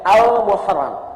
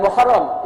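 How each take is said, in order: First: The word starts with an 'al' sound. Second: The word starts directly with the m sound. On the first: The speaker calls it right. "ingat, Al-Muharram" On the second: The speaker calls it wrong. "Bukan Muharram"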